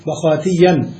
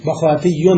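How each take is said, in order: First: بخاتيا with a clear tanween ending -an; بخاتيا ending pronounced -yyan; ending shown. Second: Said in the usual way. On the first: Shown as a demonstration. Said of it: "صار منصرفا". (بخاتيا بتنوين النصب واضحا في آخرها)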